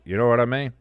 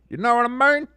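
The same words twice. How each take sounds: First: Said in the usual way. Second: Much higher, louder comic echo; silly put-on voice. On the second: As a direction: repeat it in an exaggerated high-pitched silly voice. Repeats it in a silly voice.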